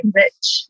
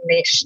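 First: "niche" rhyming with rich; niche as nitch. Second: "niche" rhyming with leash; niche as neesh. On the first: Asking if Americans say it so, "niche" as NITCH. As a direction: say "niche" as NITCH, short i and tch. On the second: Asking an American how it's said, "niche" as NEESH. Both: Shown as a demonstration. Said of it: "How do you say that in the U S?".

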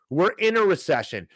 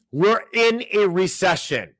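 First: Said in the usual way. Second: Slow, high, weighty "We're in a recession."; slow dramatic announcement. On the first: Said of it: "repeats headline again". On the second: Shown as a demonstration. Host to viewers, slow grim emphasis on "in" in "We're in a recession.". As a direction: lean hard on "in" and let "recession" fall slowly. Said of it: "repeats headline dramatically".

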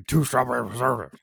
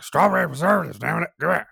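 First: Put-on higher, quick, run-together old-man order; imitating old regular. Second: Much higher, loud cranky shout; angry old-man impression. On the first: Old customer ordering jelly from confused teen, mumbled impression. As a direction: rattle it off out of a droopy mouth. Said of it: "he would say it like that". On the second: Old customer furious at confused teen worker, imitated angry shout. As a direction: demand it as if slamming a fist. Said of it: "slam his fist and be like".

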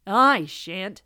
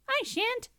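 First: Grumbling rooster. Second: Very high, small refusal; squeaky mouse. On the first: Rooster refusing the hen, grumbling. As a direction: refuse with a loud grump. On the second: Mouse refusing the hen, high and squeaky. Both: A narrator's reading.

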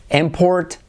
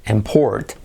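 First: IMport, IM pitched high; stress on first syllable. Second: ImPORT, low start, weight on PORT; stress on second syllable. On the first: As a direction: punch IM in import. (import con la primera sílaba aguda y acentuada) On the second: (import con acento en la segunda sílaba) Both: Shown as a demonstration. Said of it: "si acentuamos la primera sílaba o la segunda".

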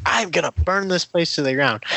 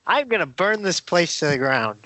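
First: Lightly voiced menacing villain; menacing villain threat. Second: Giggling through a mock villain line; half-laughing Loki threat. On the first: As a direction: toss off a half-hearted villain threat. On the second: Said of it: "he says in the trailer".

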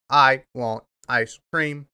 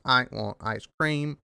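First: Slow, flat speech-machine voice; robot voice. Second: Softer, slow mock speech machine; robot voice. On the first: Retold or imitated. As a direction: imitate a text-to-speech device, slowly. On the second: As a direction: drone it like a cheap speech synthesizer. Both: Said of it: "I just sound like the SpongeBob robot".

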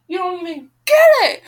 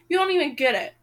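First: High, loud exasperated yell; angry shout. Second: Said in the usual way. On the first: Real, not acted. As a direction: shout it at the character. Reader rants at the heroine.

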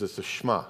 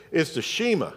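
First: Shema said as shMAH; low, soft "Shema", stressed on MAH; correct Shema. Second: Shema said as SHEE-muh; Southern-accented "Shema", SHEE-muh; mispronounced Shema. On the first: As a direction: squeeze Shema to one beat, shMAH. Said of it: "He goes". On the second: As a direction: say Shema wrong, stressed long EE up front. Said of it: "we don't say it with a southern accent". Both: Retold or imitated.

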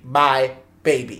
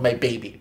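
First: "My" drawn out slowly and set apart; slow, emphatic "My baby"; stress on My. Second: Said in the usual way. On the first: Retold or imitated. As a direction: lean possessively on "My", then "baby".

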